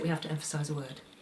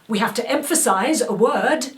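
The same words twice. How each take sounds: First: It is low-energy, flat and one note. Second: It is pushed hard with big, projected energy. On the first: It just goes for nothing. "if I under-energise it" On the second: It is meant to reach a large audience. "which I might do on stage to make it reach"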